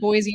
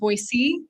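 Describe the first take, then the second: First: Boise is said the way outsiders say it. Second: Boise is said the way locals say it. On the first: The speaker is not from there. The speaker calls it wrong. "I called it Boise" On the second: The speaker is from there. The speaker calls it right. "instead of Boise"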